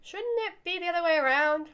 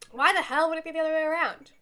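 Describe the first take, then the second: First: Higher, questioning objection; taken aback. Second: Raised, louder incredulous comeback; indignant retort. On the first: Answering an offer to sit in a lap, taken aback. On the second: Retorting about who sits in whose lap, indignant. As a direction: throw the question back indignantly. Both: Acted.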